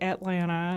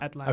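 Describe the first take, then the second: First: It is said with a Southern American accent. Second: It is said with a standard American accent. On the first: "I say Atlanta instead" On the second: "instead of Atlanta"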